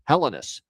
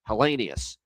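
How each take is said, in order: First: The name ends with a plain 'us' sound. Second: The name ends with an 'ee-us' sound. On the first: This is how the player himself wants it said. "Consta wants it as Hellenus" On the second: This is the long-familiar way to say the name. "I've always known that to be Hellenius"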